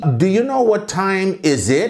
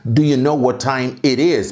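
First: "time is it" with "is" before "it", the mistake; wrong word order. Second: "time it is" with "is" after "it", the correct form; right word order. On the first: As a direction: say "Do you know what time is it?" as the learner's error. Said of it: "esquecer e falar assim". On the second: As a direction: say "Do you know what time it is?" correctly. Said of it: "importante você treinar". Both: Shown as a demonstration.

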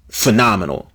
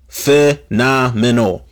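First: Said in the usual way. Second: "Phenomenal" drawn out slowly, every syllable weighted; slow emphasis. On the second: Shown as a demonstration.

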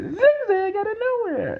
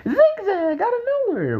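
First: High, slow excited commentator call; imitating Jerry Lawler. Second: High, excited commentator call; imitating Jerry Lawler. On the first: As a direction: stretch it out like a hyped ringside announcer. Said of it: "he said". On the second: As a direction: shout the finisher like a ringside announcer. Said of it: "Jerry the King Lawler said".

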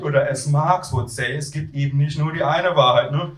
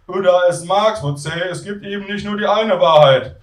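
First: Lightly imitated student pontificating; echoing Tim. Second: Raised voice of a pontificating student; Tim. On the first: Queasy narrator echoing flatmate's Marx line, mild imitation. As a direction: hand the slogan back with a touch of his voice. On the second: Acted. Student lecturing flatmates on Marx, high character voice. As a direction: pitch it high, quoting Marx to settle things.

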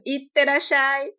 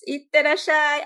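First: "Itterashai" drawn out slowly in Japanese, higher and louder; Japanese greeting. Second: "itterashai" much higher and louder; higher Japanese voice. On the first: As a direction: stretch "Itterashai" with Japanese lilt. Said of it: "tem que ser com essa entonação". ("Itterashai" devagar, com entonação japonesa aguda) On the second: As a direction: pitch "itterashai" up high like a different self. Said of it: "já fica com uma entonação um pouco mais aguda". ("itterashai" bem mais agudo e mais forte) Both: Shown as a demonstration.

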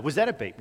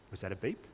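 First: Said in the usual way. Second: Soft, hushed, wondering if a beep came; a quiet half-question to yourself, much lower and softer; unsure inner voice. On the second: Retold or imitated. Hearing test, imagined inner doubt.

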